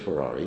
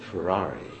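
First: The word is said in a plain, neutral tone. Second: The word is said warmly, with loving emphasis. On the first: It is just the name of a car. "it wasn't just Ferrari" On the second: The car is adored and desired. "He said that with love"

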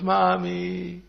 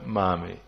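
First: It is said with strong, urgent feeling. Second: It is said flatly, without much feeling.

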